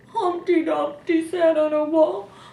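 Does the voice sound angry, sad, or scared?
sad. The line is read in a sad voice. "Or we could read it sad"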